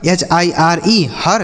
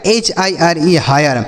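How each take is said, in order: First: हर with plain 'a', no glide; wrong reading. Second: हायर with 'aay' glide before r; correct reading. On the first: Teacher testing students with a misreading, slow spelling then हर as 'har'. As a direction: spell slowly, then say हर as one-syllable 'har'. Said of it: "क्या हम इसे ऐसे पढ़ेंगे". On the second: Teacher showing students the rule, slow spelling then हायर as 'haa-yar'. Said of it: "इसे पढ़ेंगे हायर". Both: Shown as a demonstration.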